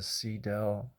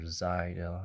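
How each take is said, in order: First: The name begins with an S sound. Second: The name begins with a Z sound.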